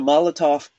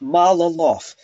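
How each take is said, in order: First: The word is said with a T sound. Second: The word is said without a T sound. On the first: The speaker calls it right. "always got the T sound" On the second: The speaker calls it wrong. "It's not Malolof"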